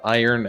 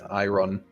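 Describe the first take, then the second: First: The word is said the usual, standard way. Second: The word is said just as it is spelled. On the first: The speaker calls it right. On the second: The speaker calls it wrong.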